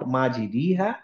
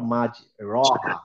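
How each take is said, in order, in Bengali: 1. r-এর পরের স্বরধ্বনিটি i-এর মতো শোনায়। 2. r-এর পরের স্বরধ্বনিটি a-এর মতো শোনায়। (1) "নট" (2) "নট"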